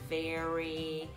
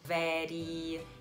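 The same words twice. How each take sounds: First: The r is pronounced the English way. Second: The r is pronounced the Brazilian Portuguese way. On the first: The speaker calls it right. "em vez de very" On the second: The speaker calls it wrong. "pronunciada da forma errada pelos brasileiros"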